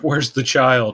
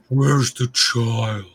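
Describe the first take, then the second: First: It is said in a normal voice. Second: It is said in a deep, booming voice.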